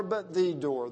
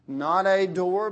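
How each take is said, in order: First: "the" in "but the door" lands firmly with a falling tune; stress on THE. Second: "a" in "Not a door" said slowly and loud, setting up the contrast; stress the contrast. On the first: Preacher insisting Jesus is the door, stress on "the". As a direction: hit "the" as the answer. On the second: Preacher contrasting a door with the door, slow and loud. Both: Shown as a demonstration. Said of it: "the one and only door".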